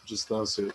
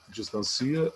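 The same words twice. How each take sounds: First: Said in the usual way. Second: "distancia" as dis-tan-CI-a; stress moved to CI. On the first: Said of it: "palavra média sem acento". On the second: Shown as a demonstration. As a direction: punch the i in "distancia", as the accentless form. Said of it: "Como é que é a palavra média sem acento". ("distancia" com a tônica no CI)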